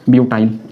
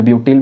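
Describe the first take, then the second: First: ब्यूटाइल ending in a long "eye-l" sound; ब्यूटाइल, second syllable said "tile"; butyl as "byu-tile". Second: ब्यूटिल ending in a short "il" sound; ब्यूटिल, second syllable said "til"; butyl as "byu-til". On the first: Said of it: "या ब्यूटिल भी बोल सकते हैं". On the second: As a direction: say ब्यूटिल with the last syllable rhyming with "till". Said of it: "भी बोल सकते हैं". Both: Shown as a demonstration.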